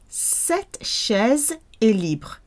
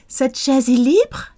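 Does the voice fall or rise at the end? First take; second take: fall; rise. First: The voice falls at the end like a statement. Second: The voice rises at the end like a question. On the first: This chair is unoccupied. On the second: Is this chair free?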